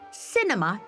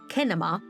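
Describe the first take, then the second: First: The word begins with a soft S sound. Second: The word begins with a hard K sound. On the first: This is the usual way to say it today. "the softer French pronunciation became the norm" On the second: This is the original, older way to say it. "the original English pronunciation"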